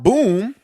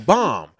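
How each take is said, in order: First: The vowel is a long 'oo', rhyming with tomb. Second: The vowel is a short 'ah', rhyming with mom. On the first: The speaker calls it wrong. "Not boom" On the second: The speaker calls it right. "No, no, bomb"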